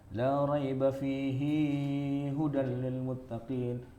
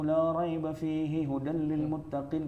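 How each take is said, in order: First: The vowel of 'hi' in 'fihi' is lengthened. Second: The vowel of 'hi' in 'fihi' is short. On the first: This follows a different reading tradition. The speaker calls it wrong. "hi-nya jangan panjang-panjang" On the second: This follows the reciter's own reading tradition. The speaker calls it right. "kita bacanya begitu"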